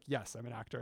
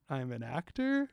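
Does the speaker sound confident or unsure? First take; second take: confident; unsure. First: It is said with confidence. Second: It is said with doubt.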